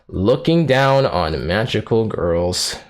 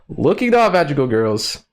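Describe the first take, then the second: First: The title is said in a flat, bored tone. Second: The title is said in a livelier, excited tone. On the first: The speaker calls it wrong. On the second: The speaker calls it right.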